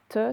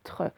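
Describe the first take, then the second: First: "te" said with no r; "te" as teu, r left out; without the R. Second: "tre" said with the r sounded; "tre" with a clear r before the vowel. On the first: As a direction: say a bare "te", t straight into the vowel. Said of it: "C'est pas te". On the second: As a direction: say "tre" as treu, r after the t. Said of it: "j'oublie pas le R". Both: Shown as a demonstration.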